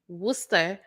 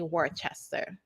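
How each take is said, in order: First: It is said the way locals say it. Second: It is said the way the spelling suggests. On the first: "I live in a town called Worcester" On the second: "you will look at it and say"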